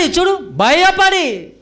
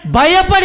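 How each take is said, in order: First: భయపడి drawn out very slowly, stressed and higher; pointing the congregation to the word భయపడి, slow and stressed. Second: Higher, louder reading of భయపడి; solemn scripture reading of భయపడి; reading the verse. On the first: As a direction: lean hard on భయపడి and stretch it. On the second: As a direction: read భయపడి aloud as the verse's last word. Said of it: "చదువుదాం ఇప్పుడు". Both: Shown as a demonstration.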